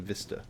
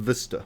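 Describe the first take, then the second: First: It is said with the speaker's usual accent. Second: It is said with a New Zealand accent. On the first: "as opposed to" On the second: "Got a bit of a thick Kiwi accent going on"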